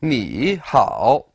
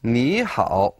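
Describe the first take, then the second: First: "ni hao" with both syllables dipping, unchanged; two third tones. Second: "ni hao" with "ni" rising, "hao" dipping; tone change, second plus third. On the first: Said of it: "So we don't say". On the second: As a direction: lift "ni" in second tone, then dip "hao" in third. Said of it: "We say". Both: Shown as a demonstration.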